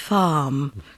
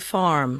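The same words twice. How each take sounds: First: The R is silent, leaving a long vowel. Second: The R is clearly pronounced after the vowel. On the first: "in British English we we ignore the R if it's before a consonant" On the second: "Americans are going to say farm"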